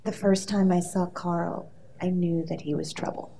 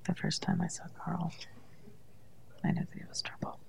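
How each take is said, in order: First: Quiet line reading. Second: Barely-moving-mouth whisper. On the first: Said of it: "I wanna give you a piece of dialogue". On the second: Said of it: "Just have to whisper". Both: Shown as a demonstration.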